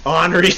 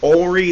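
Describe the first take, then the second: First: Henri said "ON-ree"; N sounded in Henri. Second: Henri said slowly as "OH-ree"; French Henri, silent N. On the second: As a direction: drop the N in Henri, French style. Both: Shown as a demonstration. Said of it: "in French they don't pronounce it very much".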